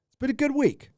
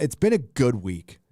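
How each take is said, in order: First: High squeaky repeat. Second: Said in the usual way. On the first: Shown as a demonstration. Repeating his own line to chat, high and playful. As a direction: jump way higher on the repeat.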